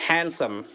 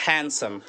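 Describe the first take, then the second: Both takes have the same delivery.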